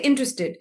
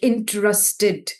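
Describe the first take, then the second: First: The word is said quickly with reduced syllables. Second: Every syllable is said with strong emphasis. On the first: The speaker calls it right. "We usually say interested" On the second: The speaker calls it wrong. "said every syllable of the word with a lot of emphasis"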